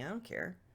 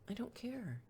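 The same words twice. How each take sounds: First: It is said in a curt, dismissive tone. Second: It is said in a gentle, pleasant tone. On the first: "the dismissive" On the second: "even if you say it nicely"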